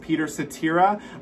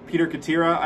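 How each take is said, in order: First: The surname begins with an S sound. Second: The surname begins with a K sound. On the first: The speaker calls it right. "it was pronounced Peter Cetera" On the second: The speaker calls it wrong. "for many years, I said"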